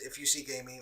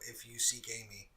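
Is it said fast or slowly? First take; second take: fast; slowly. First: It is said fast. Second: It is said slowly.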